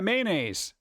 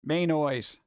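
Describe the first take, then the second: First: The ending sounds like 'naise', rhyming with 'days'. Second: The ending sounds like the word 'noise'. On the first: It is the usual pronunciation. The speaker calls it right. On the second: It follows the spelling literally. The speaker calls it wrong.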